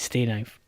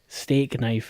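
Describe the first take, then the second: First: The first word ends without a K sound. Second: The first word ends with a K sound. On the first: "It might be stay knife" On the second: "steak knife makes sense"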